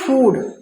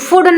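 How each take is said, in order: First: The oo vowel is long and drawn out. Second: The oo vowel is short and clipped. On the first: The speaker calls it right. "आराम से बोल रहा है फूड, तो इसमें long है" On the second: The speaker calls it wrong. "फूड नहीं है"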